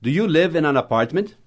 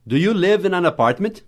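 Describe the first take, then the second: First: "Do you live in an apartment?" with a rise on "you"; question tune. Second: "Do you live in an apartment?" rising higher on "live"; question tune. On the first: Teacher repeating the question for imitation. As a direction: model rising question intonation. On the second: Teacher giving the intonation to copy. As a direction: lift the question with a clear rise. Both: Shown as a demonstration. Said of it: "Tenta repetir com a minha entonação".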